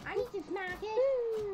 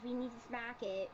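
First: Louder, higher "I need to smack it"; loud insistent. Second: Said in the usual way. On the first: Real, not acted. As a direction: push it out eagerly and loud.

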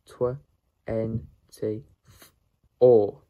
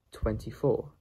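First: "twenty-four" broken into separate sounds with pauses; sounded out. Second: Said in the usual way. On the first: Shown as a demonstration. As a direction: sound out "twenty-four" bit by bit, final "four" loud. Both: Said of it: "How to pronounce the number".

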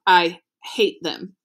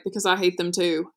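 First: Slow, firm repeat of "I hate them", each word pressed; repeated forcefully. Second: Said in the usual way. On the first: A narrator's reading. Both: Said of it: "he repeated forcefully".

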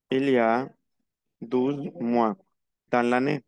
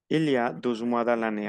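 First: Measured, piece by piece for learners; slow model answer. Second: Said in the usual way. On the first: Shown as a demonstration. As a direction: answer in separate chunks, pausing between them. (respuesta modelo, por partes) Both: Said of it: "On répond avec la même phrase".

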